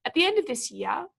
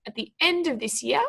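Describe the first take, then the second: First: "At the end of this year" as one phrase, rising before a pause; pause marking. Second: "At the end of this year" with weight on "end"; emphasis on key words. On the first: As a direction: read "At the end of this year" evenly up to the comma pause. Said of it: "put them in for you". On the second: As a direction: lean on "end" in "At the end of this year", rising at the close. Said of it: "we want to be emphasizing". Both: Shown as a demonstration.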